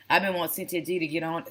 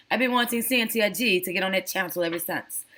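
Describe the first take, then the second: First: Said in the usual way. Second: Playful attempt at a British Jamaican accent; mock British Jamaican accent. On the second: Shown as a demonstration. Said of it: "my British Jamaican accent".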